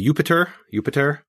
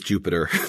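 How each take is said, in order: First: The name begins with a Y sound. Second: The name begins with a J sound.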